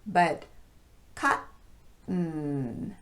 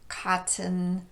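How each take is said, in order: First: The T is a glottal stop. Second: The T is a clear T. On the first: "use this glottal stop in place of the T" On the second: "a normal T sound in place of the glottal stop"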